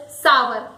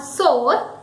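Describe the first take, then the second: First: "sour" as SAA-wer; correct sour. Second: "sour" as soar; wrong sour. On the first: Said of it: "Opposite of sweet is sour". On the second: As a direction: say "sour" as one syllable with an O vowel. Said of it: "it is not sour". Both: Shown as a demonstration.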